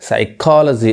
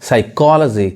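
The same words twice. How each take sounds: The two takes are said the same way.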